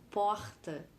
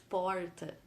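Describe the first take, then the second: First: The R is said the carioca way, in the throat. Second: The R is said the caipira way, curled back.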